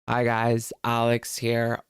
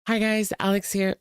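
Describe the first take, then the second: First: It is said in a deliberately deepened voice. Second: It is said in her usual higher video voice.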